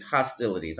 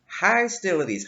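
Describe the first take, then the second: First: Said in the usual way. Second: Hostilities with a long "hy" in the first syllable, as "HY-stilities"; spirit's odd pronunciation. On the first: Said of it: "But I hear hostilities". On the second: Retold or imitated. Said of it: "maybe I got a spirit with an accent".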